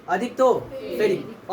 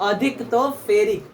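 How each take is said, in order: First: Slower, each word of अधिक तो ferric laid out clearly; slow repeat. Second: Said in the usual way. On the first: Shown as a demonstration. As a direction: say अधिक तो ferric again slowly so it sinks in. (धीरे और साफ़ दोहराना)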